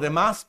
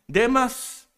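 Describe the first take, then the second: First: The stress is on the last syllable. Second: The stress is on the first syllable. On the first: "así como Demás" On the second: "pero sin acento"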